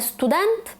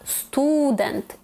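First: The stress is on the last syllable. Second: The stress is on the first syllable. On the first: The speaker calls it wrong. "Не студент" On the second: The speaker calls it right. "навіть коли цей другий склад виходить першим у слові"

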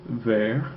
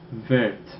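First: The final t is silent. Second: The final t is pronounced. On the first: This is the masculine form. "if the base form ends in a silent consonant" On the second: This is the feminine form. "you'll end up pronouncing that consonant in the feminine forms"

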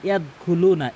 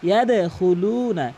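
First: The d sound is plain, without a bounce. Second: The d sound is bounced with a jolt. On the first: The speaker calls it wrong. "এটা সম্পূর্ণ ভুল।" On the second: The speaker calls it right. "ইয়াদে ধাক্কা দিয়ে উচ্চারণ করবেন"

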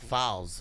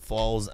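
First: The vowel sounds like an a. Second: The vowel sounds like an o or u. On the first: The speaker calls it right. "It's an A, not a O or U" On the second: The speaker calls it wrong. "Why do you keep saying Falz?"

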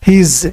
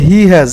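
First: The two words merge into one syllable. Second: Both words are said in full. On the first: "হ্যাবাত তারপরে থাকলো শুধু জ"

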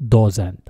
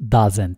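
First: The first vowel is a rounded 'o' sound. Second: The first vowel is a short 'uh' sound. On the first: The speaker calls it wrong. "لا ننطقها doesn't" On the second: The speaker calls it right. "ردد هذه الكلمة doesn't"

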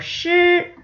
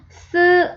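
First: The syllable starts with a curled-tongue sh sound. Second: The syllable starts with a plain s sound. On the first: The speaker calls it right. "아니고 실" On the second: The speaker calls it wrong. "스 아니고"

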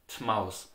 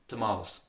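The two takes are said the same way.

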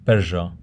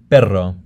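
First: The R is a buzzing, z-like sound. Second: The R is a rolled trill. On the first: "The second type of R is the asibilada. It sounds like this, z" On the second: "The double R is also trilled"

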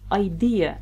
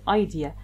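First: The stress falls on the second syllable. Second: The stress falls on the first syllable. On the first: The speaker calls it right. "Syllable stress, which means you pronounce 1 word properly" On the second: The speaker calls it wrong. "not idea"

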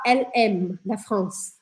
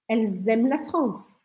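First: The S is silent with no link between words. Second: A Z sound links the first two words. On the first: The speaker calls it wrong. "a gente não vai falar LM da France" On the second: The speaker calls it right. "Eu vou grudar o som de L, que termina com S, com o som de M"

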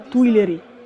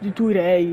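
First: The name is said with an 'l' sound. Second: The name is said without an 'l' sound. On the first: The speaker calls it right. "Credo che sia giusto" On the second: The speaker calls it wrong. "non lo sapevo pronunciare, di Tuirei, una roba del genere"

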